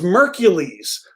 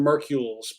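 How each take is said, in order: First: The name rhymes with Hercules. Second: The name does not rhyme with Hercules. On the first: The speaker calls it right. "It rhymes with Hercules" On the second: The speaker calls it wrong. "That that probably sounded really stupid"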